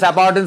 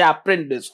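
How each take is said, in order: First: The middle syllable sounds like 'par'. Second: The middle syllable sounds like 'pren'. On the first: The speaker calls it wrong. "আমি বাবা করে অ্যাপার্টেন্স অ্যাপার্টেন্স বলে দিতাম" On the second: The speaker calls it right. "কথাটা হচ্ছে অ্যাপ্রেন্টিস"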